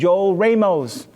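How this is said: The name has an American English pronunciation. This is how the name is said in the States.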